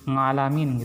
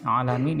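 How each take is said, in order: First: The word starts with an 'ng' sound. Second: The word starts with a plain vowel.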